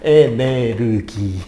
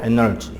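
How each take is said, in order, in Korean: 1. 일본식 'enereugi'로 발음합니다. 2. 영어식 'eneoji'로 발음합니다. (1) "일본 애들이 발음을 잘못 발음하면 에네르기" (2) "영어로 에너지"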